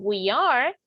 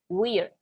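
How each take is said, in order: First: It is said as two separate words. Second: It is said as one joined word. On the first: "dos frases" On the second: "Se pronuncia diferente"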